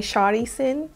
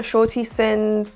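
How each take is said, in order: First: "Shari Sin" with a flapped, softened middle consonant; non-British pronunciation. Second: Said in the usual way. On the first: Shown as a demonstration. Vlogger joking about her British accent, "Shari Sin" pronounced un-British. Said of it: "I should be saying". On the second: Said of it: "with my proper British accent".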